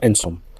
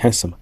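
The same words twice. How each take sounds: First: A d sound is heard in the middle. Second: No d sound is heard in the middle. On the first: The speaker calls it wrong. "on ne dit pas handsome" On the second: The speaker calls it right. "on dit handsome"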